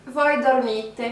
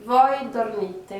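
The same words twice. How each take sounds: First: Voi dormite, stress on mi; teacher modelling voi dormite; Italian model phrase. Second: Voi dormite slowly, falling at the end; teacher repeats Voi dormite; Italian model phrase. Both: Shown as a demonstration. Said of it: "Donc là".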